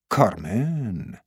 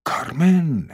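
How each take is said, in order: First: Soft, slow, drawn-out CARMEN; musing. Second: کارمن said fuller, rising then falling; savouring. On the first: Man hears the woman's name at last, musing softly. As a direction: let کارمن out slowly and softly, falling. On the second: Man delights in the woman's fitting name, savouring it. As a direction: relish the name کارمن, a little brighter in pitch. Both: A narrator's reading.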